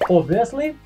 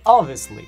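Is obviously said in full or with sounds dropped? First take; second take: full; reduced. First: Every sound of the word is pronounced. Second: Some consonant or vowel sounds are dropped. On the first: "Я всегда думал, что эти слова произносятся так" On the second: "могут выпадать звуки б или в"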